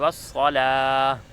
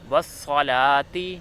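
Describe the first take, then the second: First: The word ends with a silent h sound. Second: The word ends with a t and a vowel. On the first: The reciter stops on this word. "वक़फ़ की हालत में" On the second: The reciter continues without stopping. "ये असल हरफ है"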